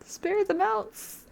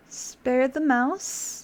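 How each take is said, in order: First: Much higher, slow and drawn out; high stretched final defiance; high slow plea. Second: Each word stretched out slowly; slow, teasing, deliberate repeat; very slow insistence. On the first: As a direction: squeak it out slowly, pleading. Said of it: "final insistent choice". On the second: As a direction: drag it out stubbornly. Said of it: "insisting on the choice". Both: Real, not acted.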